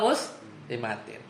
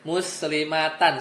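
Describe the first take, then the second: First: The word ends with an 'in' sound. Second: The word ends with an 'an' sound. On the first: The speaker calls it right. "muslimatin mansub" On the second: The speaker calls it wrong. "nggak mungkin dia dibacanya muslimatan, salah"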